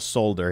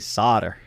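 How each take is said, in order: First: It is pronounced the British way. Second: It is pronounced the American way. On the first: This form is not used where the speaker lives. "There's no solder here" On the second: This form is used where the speaker lives. "only solder"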